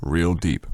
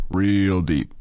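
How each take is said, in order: First: Said in the usual way. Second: "real" drawn out longer and leaned on; stretched emphasis. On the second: Acted. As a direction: stretch the word "real" for effect. Repeats it with more weight.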